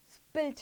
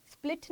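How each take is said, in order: First: स्पिल्ट said as spilt, with the l after the i; the right स्पिल्ट, s-p-i-l-t, l at the end; correct pronunciation. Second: स्प्लिट said as split, with the l before the i; the mistaken स्प्लिट, s-p-l-i-t; wrong pronunciation. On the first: Teacher correcting the class on how to say स्पिल्ट. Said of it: "स्पिल्ट है". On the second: Teacher showing students the wrong way to say स्प्लिट. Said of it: "स्प्लिट नहीं है". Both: Shown as a demonstration.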